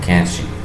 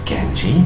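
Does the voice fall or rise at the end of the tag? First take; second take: fall; rise. First: The pitch falls at the end of the tag. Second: The pitch rises at the end of the tag. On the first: The speaker only wants confirmation. "la entonación fue hacia abajo" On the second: The speaker really wants an answer. "si la entonación en las question tags la hacemos hacia arriba"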